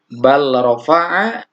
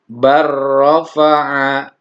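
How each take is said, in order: First: The l sound is kept before the r. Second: The l sound merges into the r.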